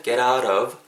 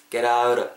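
First: "get out of" with crisp separate t's; careful unlinked "get out of"; unlinked words. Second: "get out of" as "geraurov"; one smooth linked word, "geraurov"; natural linking. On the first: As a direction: say "get", "out", "of" one by one. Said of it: "get out of가". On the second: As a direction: flap both t's in "get out of". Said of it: "자연스럽게 음이 연결되면은". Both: Shown as a demonstration.

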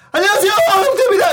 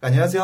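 First: High, loud, rapid-fire hello; overly polite greeting. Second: Said in the usual way. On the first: Retold or imitated. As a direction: belt out an eager, deferential introduction. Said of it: "정말 예의 바른 걸 보여주려고 인사하는". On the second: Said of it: "하면 되는데".

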